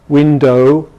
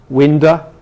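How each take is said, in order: First: The final vowel is a full oh sound. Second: The final vowel is a weak uh sound. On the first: "it doesn't happen in R P" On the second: "in American and some English dialects you get"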